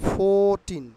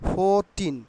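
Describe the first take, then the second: No difference in how they are said.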